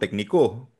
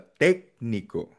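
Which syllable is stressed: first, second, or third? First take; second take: third; first. First: The stress is on the third syllable. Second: The stress is on the first syllable. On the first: The speaker calls it wrong. "Pag nilagay mo sa O" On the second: The speaker calls it right. "Ang basa"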